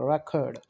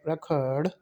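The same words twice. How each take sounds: First: The stress is on the first syllable. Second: The stress is on the second syllable. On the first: It is used as a noun. "We will give stress on the first syllable" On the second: It is used as a verb. "we will give stress on the second syllable"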